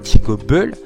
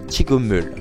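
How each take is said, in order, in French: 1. La consonne avant la dernière voyelle se prononce comme B. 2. La consonne avant la dernière voyelle se prononce comme M. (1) "normalement j'aurais dû dire Chigobel" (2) "il va se transformer en un miem, donc en un M"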